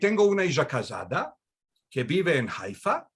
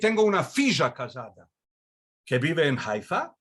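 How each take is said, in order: First: The word for daughter starts without an f sound. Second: The word for daughter starts with an f sound. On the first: This is how it is said in Istanbul. "you would pronounce the things just like very similar to Hakitia or to modern Spanish" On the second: This is how it is said in Salonika. "you would keep the etymological F"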